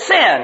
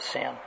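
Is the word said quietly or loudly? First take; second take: loudly; quietly. First: The word is said loudly. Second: The word is said quietly.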